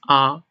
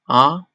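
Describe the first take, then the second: First: The pitch stays level and high. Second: The pitch rises toward the end. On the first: "It's a flat tone. It's very flat" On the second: "It sounds like a question"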